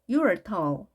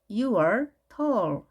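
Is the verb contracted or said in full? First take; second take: contracted; full. First: The verb is contracted onto the pronoun. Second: The verb is said as a full separate word.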